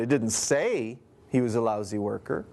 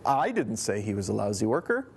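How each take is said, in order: First: The stress is on the word say. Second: The stress is on the word I.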